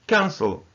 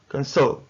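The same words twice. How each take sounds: First: Cancel correctly stressed as CAN-cel; high CAN, then falling away on cel in cancel; stress on first syllable. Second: Cancel wrongly stressed as can-CEL; mis-stressed can-CEL as a counterexample; stress on second syllable. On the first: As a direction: model cancel with the weight up front. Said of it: "the first syllable is stressed". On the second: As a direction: say cancel with a weak first syllable and heavy CEL. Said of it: "not cancel". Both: Shown as a demonstration.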